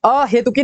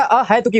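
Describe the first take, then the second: First: अहेतुकी with he in the middle; mistaken e vowel. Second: अहेतुकी with open hai; corrected ai vowel. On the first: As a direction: say अहेतुकी with a pure e. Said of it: "नहीं होता". (अहेतुकी, हे के साथ) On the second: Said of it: "double तिरछी पाई". (अहेतुकी, है के साथ) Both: Shown as a demonstration.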